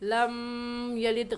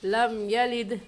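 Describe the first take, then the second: First: The m is held with a nasal hum. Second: The m is short with no nasal hum. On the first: The speaker calls it wrong. "गलत हो जाएगा" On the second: The speaker calls it right. "हम गुन्ना नहीं करेंगे। हम कहेंगे लम यलिद"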